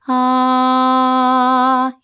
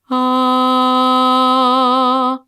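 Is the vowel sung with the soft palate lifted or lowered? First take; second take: lowered; lifted. First: The vowel is made with a lowered soft palate. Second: The vowel is made with a lifted soft palate. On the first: "Here's lowered" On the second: "Here's lifted"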